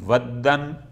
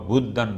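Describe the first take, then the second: First: The first vowel is an 'a' sound. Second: The first vowel is a 'u' sound. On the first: "बेफ़त्हिल वाव" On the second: "व ज़म्मिहा"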